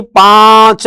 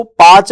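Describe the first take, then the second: First: पांच with a long nasalised आ; drawn-out पांच, vowel through the nose; correct nasal form. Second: पांच said as "paach", no nasal; rejected पांच without nasalisation; wrong oral form. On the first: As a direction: stretch पांच slowly as "pããch". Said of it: "पांच है". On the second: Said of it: "पांच नहीं". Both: Shown as a demonstration.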